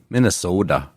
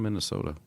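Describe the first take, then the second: First: It is said in a strong Minnesota accent. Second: It is said plainly, without a regional accent. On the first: This is how a real local would say it. The speaker calls it right. "She needs to work on her Minnesota accent. Should be Minnesota" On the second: The caller did not sound like a local. The speaker calls it wrong. "she didn't say it like that. She said I'm from Minnesota"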